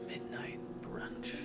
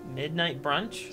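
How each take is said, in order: First: It is said mysteriously and strongly. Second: It is said plainly, like a question. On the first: "Say it say it as though it is somewhat mysterious, but yet strong" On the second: "say it again"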